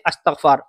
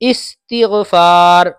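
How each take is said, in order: First: The word begins with an 'a' vowel. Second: The word begins with an 'i' vowel. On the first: The speaker calls it wrong. "अस्तगफार नहीं है, गलत है" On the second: The speaker calls it right. "इस हमजा पे जेर होना चाहिए"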